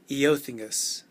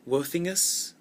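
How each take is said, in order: First: The name begins with an 'ee-oh' sound. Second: The name begins with a 'woh' sound. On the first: "I always want to say Eothingus" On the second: "unusual pronunciation like Wothingus. Some E Os are actually pronounced Wo"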